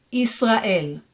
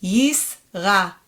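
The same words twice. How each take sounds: First: Israel joined up as is-ra-EL; "Israel" run together, Hebrew vowels; fluent reading. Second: Yisrael split into YIS, RA, EL; "Yisrael" in three separate beats; syllable by syllable. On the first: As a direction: say "Israel" as one Hebrew word. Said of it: "more fluently". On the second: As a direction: sound out "Yisrael" with gaps between syllables. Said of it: "read it one more time". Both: Shown as a demonstration.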